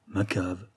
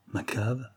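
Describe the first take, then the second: First: Softly repeated, falling like a statement. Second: Soft, puzzled question rising on "cave"; questioning echo. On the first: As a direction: echo the words under your voice. (répété tout bas, sans interroger) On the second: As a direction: repeat it quietly, lifting "cave" into a question. (question étonnée, tout bas, qui monte sur « cave ») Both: A narrator's reading. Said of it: "répétait le comte".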